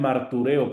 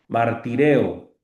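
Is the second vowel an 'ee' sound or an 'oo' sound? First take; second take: oo; ee. First: The second vowel is an 'oo' sound. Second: The second vowel is an 'ee' sound. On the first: The speaker calls it wrong. "Muchos lo pronuncian martureo, pero no" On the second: The speaker calls it right. "la upsilon se pronuncia como i"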